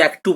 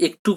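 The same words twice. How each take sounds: First: একটু as "æk-tu"; একটু starting like English "act"; variant AE vowel. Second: একটু as "ek-tu"; একটু starting on plain এ; E vowel. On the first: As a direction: say একটু with an open "æ". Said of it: "কেউ একটু বলে". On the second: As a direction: say একটু with a closed "e". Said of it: "অনেকে একটু বলে". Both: Shown as a demonstration.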